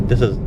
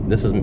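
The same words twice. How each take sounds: Both takes have the same delivery.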